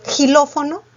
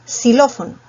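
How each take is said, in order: First: "Xilófono" begun with a throaty jota, questioning; higher, mispronounced "Xilófono" with a J sound. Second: "xilófono" begun with a clean S. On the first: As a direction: say "Xilófono" as hilófono, rising in doubt. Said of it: "Tú dices". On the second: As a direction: say "xilófono" as silófono, falling firmly. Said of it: "No es xilófono, es". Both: Shown as a demonstration.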